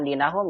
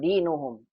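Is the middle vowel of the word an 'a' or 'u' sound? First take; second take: a; u. First: The middle vowel is an 'a' sound. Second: The middle vowel is a 'u' sound. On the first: The speaker calls it wrong. "ini bukan dinahum ya" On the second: The speaker calls it right. "salah salah harokat yang betul dinuhum"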